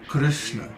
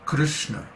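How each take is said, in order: The two takes are said the same way.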